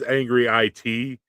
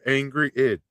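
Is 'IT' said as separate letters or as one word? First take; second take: separate letters; one word. First: The last part is said as letters I-T. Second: The last part is said as the word "it." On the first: This is how the name is meant. The speaker calls it right. "it says Angry IT in my phone" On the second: A machine read the name aloud. The speaker calls it wrong. "my voiceover thing says Angry It 'cause it's stupid"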